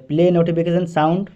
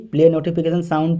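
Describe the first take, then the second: No difference in how they are said.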